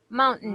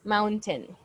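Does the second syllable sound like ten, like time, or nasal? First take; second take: nasal; like ten. First: The second syllable is said through the nose. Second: The second syllable is clear, like ten. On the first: "some people pronounce the T A I N part with a nose, with a nasal sound" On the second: "If you want it to to sound very prominent, we can say mountain"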